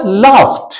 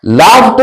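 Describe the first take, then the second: First: लाफ्ट as "laft", released T at the end; final -ed as T. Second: लाफ्ट said with a voiced D ending; the mistaken D ending on लाफ्ट; wrong final D. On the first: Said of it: "लाफ्ट नहीं बोलना होगा". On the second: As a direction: say लाफ्ट as "laf-d". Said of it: "नहीं बोलना होगा". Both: Shown as a demonstration.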